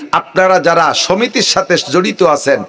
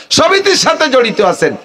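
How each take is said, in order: First: Said in the usual way. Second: Raised preaching call. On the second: Acted. Preacher calling out moneylenders in the crowd, raised high call. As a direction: repeat it higher, pushing harder. Repeats phrase, raises second.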